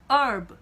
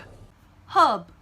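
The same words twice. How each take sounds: First: The h at the start is silent. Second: The h at the start is sounded. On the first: "미국 사람들은요, 이 단어에 H를 발음하지 않습니다" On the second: "영국 영어를 하는 사람들은 이 H를 발음하거든요"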